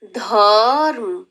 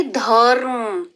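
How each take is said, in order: First: धर्म drawn out slowly as dharm with a half र; slow careful demo. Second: धर्म drawn out slowly, half र before म; slow careful demo. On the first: Teacher to young pupils, slow half-r demo. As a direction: stretch धर्म slowly, र without a vowel. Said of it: "ऐसे देखिए". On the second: Teacher asking pupils to listen closely, slow demo. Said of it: "ध्यान से सुनेंगे". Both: Shown as a demonstration.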